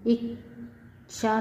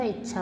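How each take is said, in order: First: इच्छा as "ik ... sha", split and slow; mispronounced. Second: Said in the usual way. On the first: Shown as a demonstration. Teacher showing students an error, इच्छा with wrong ksh. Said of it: "नहीं होता". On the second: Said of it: "होता है".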